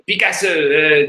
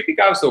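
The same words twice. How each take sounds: First: Picasso said French-style as pikaso, stress on the last syllable; a playful French take on Picasso; French pronunciation. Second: Picasso said in English, high gushing woman's voice; plain English Picasso in the fan's voice; English version. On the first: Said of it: "say it in French". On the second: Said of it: "imagine it's in French". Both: Retold or imitated.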